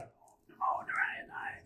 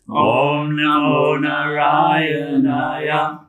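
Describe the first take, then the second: First: It is whispered without full voice. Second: It is spoken in a full, audible voice.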